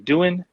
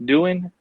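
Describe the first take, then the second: First: The name is said like the English word 'doing'. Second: The name is said like the English word 'doing'.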